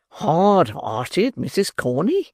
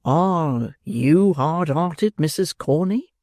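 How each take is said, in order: First: Beadle voice. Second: Drawn out, very slow coaxing question; slow wooing beadle. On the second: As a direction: linger on each word, courting. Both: Acted. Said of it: "said Mister Bumble".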